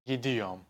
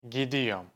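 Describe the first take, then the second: No difference in how they are said.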